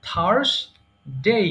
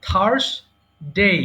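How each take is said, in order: The two takes are said the same way.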